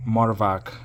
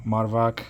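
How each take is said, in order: Both takes have the same delivery.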